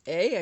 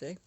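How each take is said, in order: First: A louder Canadian-style Eh? tagged on the end; the Canadian Eh? with a rising question tune. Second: Said in the usual way. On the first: Shown as a demonstration. [name] hearing her own Canadian eh while talking to viewers, playful Canadian accent. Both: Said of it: "I sound like a Canadian".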